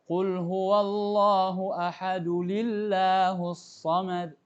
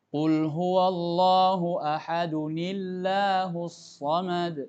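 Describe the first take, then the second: First: An l sound links ahad to Allahus. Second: An n sound links ahad to Allahus. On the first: The speaker calls it wrong. "kesalahan orang baca Al-Ikhlas, mereka mengucapkan ketika wasal itu li" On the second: The speaker calls it right. "Kalau mau disambung ayat satu dengan dua"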